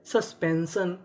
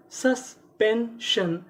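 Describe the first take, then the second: First: Said in the usual way. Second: Very slow "suspension", each syllable apart. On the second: Shown as a demonstration. Teacher builds the word for learners, slowly syllable by syllable. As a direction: split "suspension" into three separate beats.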